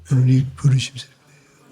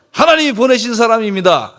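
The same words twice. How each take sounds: First: Grudging, half-mumbled mock recital; mock grudging husband reciting it under duress; forced reluctant recital. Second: Loud, higher and firm; leading the congregation in a bold declaration; confident proclamation. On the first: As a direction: recite it as if made to, no heart in it. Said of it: "억지로, 억지로". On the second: Shown as a demonstration. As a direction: proclaim it with conviction, full voice. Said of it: "아, 이제 좀 달라지네".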